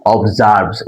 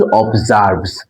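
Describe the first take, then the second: First: অবজার্ভস said slowly, ob-ZARBS; pronounced observes. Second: অবজার্ভস drawn out slowly as a model; slow model pronunciation. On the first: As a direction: spell out অবজার্ভস clearly, sound by sound. (অবজার্ভস স্পষ্ট উচ্চারণে) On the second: (অবজার্ভস ধীরে উচ্চারণ করে দেখানো) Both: Shown as a demonstration. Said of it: "উচ্চারণটা কি".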